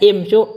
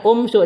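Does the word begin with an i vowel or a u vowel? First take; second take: i vowel; u vowel. First: The word begins with an i vowel. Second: The word begins with an u vowel. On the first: The speaker calls it right. "dibaca imsyu" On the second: The speaker calls it wrong. "bukan dibaca umsyu"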